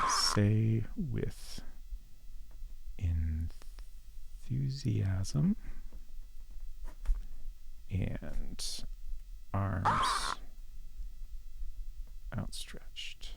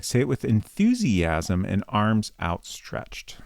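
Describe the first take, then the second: First: Whispering the words slowly while typing; whispered dictation. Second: Said in the usual way. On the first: Real, not acted. Streamer whispers the advice while typing it in. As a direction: breathe each word out as you type it. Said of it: "Exclamation point". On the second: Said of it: "It's not essential".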